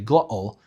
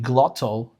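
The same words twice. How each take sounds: First: The middle T is a glottal stop. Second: The middle T is a clear t sound. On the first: "the glottal sound" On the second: "Instead of saying"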